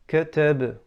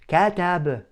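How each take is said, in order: First: The first vowel is barely opened, clipped short. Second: The first vowel is opened too wide, exaggerated. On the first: "I'm not opening my mouth with the fatha" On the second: "I don't over exaggerate the opening of the mouth"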